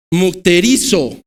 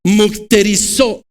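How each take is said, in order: First: Mukterizo said slowly with the accent on the i; stress on the i. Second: Mukterizo said slowly, syllable by syllable; Greek word. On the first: Preacher repeating the Greek word mukterizo, slow, stressing the i. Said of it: "Lleva acento en la I". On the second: Preacher teaching the congregation to say mukterizo, slow. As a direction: pronounce mukterizo carefully and slow. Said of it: "la palabra que se utiliza en el original en griego es la palabra". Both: Shown as a demonstration.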